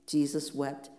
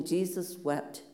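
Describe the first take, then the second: First: Said in the usual way. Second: Jesus wept said slowly, each word weighted with a falling end; hushed, slow gravity on Jesus wept; slow, solemn reading. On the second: Shown as a demonstration. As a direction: let Jesus wept land slow and heavy. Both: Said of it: "Standing outside Lazarus' tomb".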